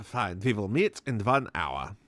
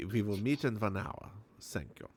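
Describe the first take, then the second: First: Put-on Russian accent. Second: Put-on old man's German accent, lightly done. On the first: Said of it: "I don't know why I made him Russian". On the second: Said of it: "Sells my German accent".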